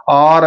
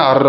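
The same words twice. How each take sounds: First: ఆర్ with a long drawn "aa"; wrong long vowel. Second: అర్ with a short "a"; correct short vowel. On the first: Teacher showing the trick exam option, ఆర్ with long vowel. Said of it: "ఆర్ అనేది తప్పు". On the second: Teacher giving students the right form, అర్ with short vowel. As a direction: say అర్ with a brief vowel and firm r. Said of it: "అర్ అనేది రావాలి". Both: Shown as a demonstration.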